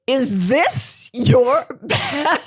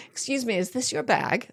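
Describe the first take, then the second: First: Very slow, stress on this, suspicious rise on bag. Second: Soft, polite security check query; polite question. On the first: Security guard eyeing a traveller's heavy bag, slow suspicious stress. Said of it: "They say". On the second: Guard asking a traveller politely, soft polite question. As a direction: ask it gently and politely, quieter. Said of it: "they don't say". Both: Retold or imitated.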